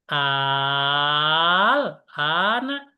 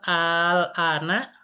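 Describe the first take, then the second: First: The first vowel is drawn out long. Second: The first vowel is short. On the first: It asks a question. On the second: It is a plain statement.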